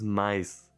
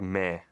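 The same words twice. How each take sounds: First: It is pronounced the Portuguese way. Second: It is pronounced the French way. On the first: "but this is mais" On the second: "this is also the same word in French, and there's like mais"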